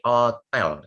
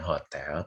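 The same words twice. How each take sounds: First: It is said with a French pronunciation. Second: It is said with an Indonesian pronunciation. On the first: The speaker calls it right. "tapi hotel ya. Dalam bahasa Perancis itu hotel" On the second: The speaker calls it wrong. "bukan hotel"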